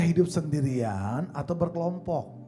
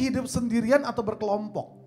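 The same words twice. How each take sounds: First: The question is spoken slowly and deliberately. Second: The question is spoken at a normal pace.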